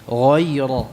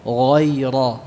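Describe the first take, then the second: No difference in how they are said.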